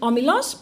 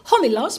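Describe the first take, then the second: First: It is said in modern Greek pronunciation. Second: It is said in reconstructed ancient Greek pronunciation. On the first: "in the modern Greek pronunciation" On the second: "the reconstituted Erasmian pronunciation of ancient Greek"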